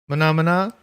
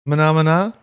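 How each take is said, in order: Both takes have the same delivery.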